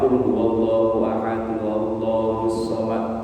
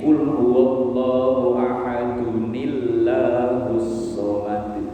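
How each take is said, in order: First: Ahadun and Allahus are said as separate words. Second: Ahadun runs into Allahus with a linking ni sound. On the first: The speaker calls it wrong. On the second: The speaker calls it right. "Jadi cara bacanya begini"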